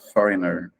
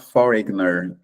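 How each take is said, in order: First: The g sound is silent. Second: The g sound is pronounced. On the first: The speaker calls it right. "mas vai falar foreigner mesmo" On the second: The speaker calls it wrong. "esse G é mudo, então você não vai falar foreigner"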